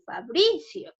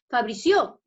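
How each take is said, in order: First: "Fabricio" stressed on bri, falling after it; correct stress. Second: "Fabricio" with stress thrown on the final cio; misplaced stress. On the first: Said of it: "Sería en bri". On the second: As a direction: say "Fabricio" as fa-bri-CIÓ, rising at the end. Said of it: "ahí está subrayada en sio". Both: Shown as a demonstration.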